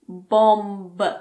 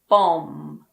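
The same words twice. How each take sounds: First: The word ends with an audible b sound. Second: The word ends with an m sound. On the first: The speaker calls it wrong. "It's not bomb" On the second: The speaker calls it right. "The last sound is M. So just pretend that the B isn't there. It's bomb"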